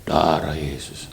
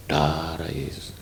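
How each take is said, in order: First: Slow reverent. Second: Low, slow and hushed, a reverent murmur; hushed reverent prayer; slow reverent whisper. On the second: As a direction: breathe the name softly, in awe. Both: Shown as a demonstration. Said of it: "tapi hati saya gini".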